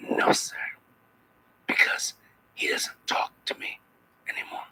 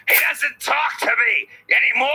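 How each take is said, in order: First: Whispered, jealous disdain; quiet scornful whisper, a touch of jealousy. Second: Anguished cry. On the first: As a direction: hiss it softly with contempt. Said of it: "I said it with a little bit of disdain". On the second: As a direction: wail the line as written with its exclamation point. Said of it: "So I'm supposed to say". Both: Shown as a demonstration.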